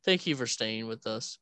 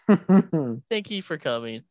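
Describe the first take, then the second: First: Said in the usual way. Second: Booming slow sign-off to listeners; loud slow host voice. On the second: Shown as a demonstration. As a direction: announce it like a show host. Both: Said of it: "our topic has gone so off".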